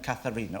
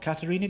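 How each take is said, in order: First: The name starts with a 'th' sound, like 'Kath'. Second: The name starts with a 't' sound, like 'Cat'.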